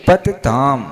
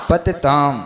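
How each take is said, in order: Both takes have the same delivery.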